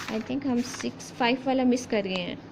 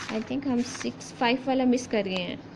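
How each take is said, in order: The two takes are said the same way.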